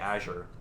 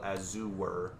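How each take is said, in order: First: The word is said with two syllables. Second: The word is said with three syllables. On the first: "when I can just say Azure" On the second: "the three syllable Azure"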